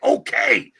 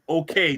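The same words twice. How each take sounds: First: It is said loudly, with strong emphasis. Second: It is said calmly, without force.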